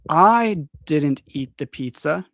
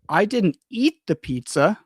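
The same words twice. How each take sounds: First: The stress falls on the word I. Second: The stress falls on the word eat. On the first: Someone else ate it. "is like, it was not me, it was another person" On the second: Something else was done with it. "The focus is on eat"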